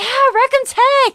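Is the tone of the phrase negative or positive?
positive. It is said in a happy, positive tone. The team won the game. "when we win a game, it's like, yeah"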